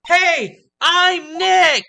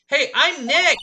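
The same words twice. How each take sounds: First: It is said at a louder volume. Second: It is said at a quieter volume.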